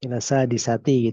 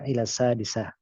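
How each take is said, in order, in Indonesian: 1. Kata terakhir mempertahankan suku kata akhirnya secara penuh. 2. Kata terakhir diakhiri terpotong, tanpa suku kata itu. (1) "gitu aslinya ya"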